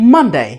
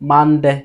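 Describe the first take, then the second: First: The first syllable is said with strong stress. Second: The first syllable is said without extra stress. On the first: The speaker calls it right. "প্রথম লেটারটাকে যদি আমি pressure দিই" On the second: The speaker calls it wrong. "যদি আমি pressure না দিয়ে বলি প্রথম লেটার"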